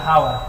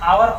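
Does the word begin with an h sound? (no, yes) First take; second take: yes; no. First: The word starts with an h sound. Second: The word starts with a vowel, no h. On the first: The speaker calls it wrong. "हावर गलत है" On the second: The speaker calls it right. "आवर पढ़ते इसको"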